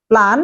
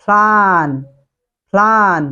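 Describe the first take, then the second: First: 'plan' with a hard unaspirated p; wrong pronunciation. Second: 'plan' with a puffed p and drawn-out vowel; corrected pronunciation. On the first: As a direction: say 'plan' short, no breath on the p. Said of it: "It's not". (ভুল উচ্চারণে 'plan', শ্বাসহীন প) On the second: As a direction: model 'plan' as 'phlaan', breath on the p. (শুদ্ধ উচ্চারণে 'plan', ফ্লান) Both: Shown as a demonstration.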